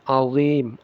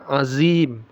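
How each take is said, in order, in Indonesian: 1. Konsonan tengahnya dh yang tebal dan berat. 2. Konsonan tengahnya z biasa yang berdengung. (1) "makhrajnya sama dengan zal" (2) "sering dibaca makhrajnya ini sebagai makhraj zai"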